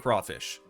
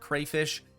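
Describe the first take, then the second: First: The first syllable sounds like craw. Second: The first syllable sounds like cray. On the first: "Personally, I say crawfish" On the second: "Some of you probably pronounce it crayfish"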